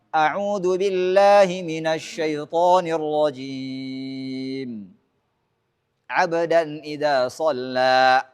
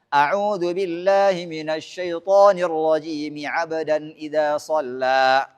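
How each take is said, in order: First: There is a pause after rajim. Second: Rajim runs straight into abdan without pausing. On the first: "dipisah semuanya" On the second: "disambung semuanya"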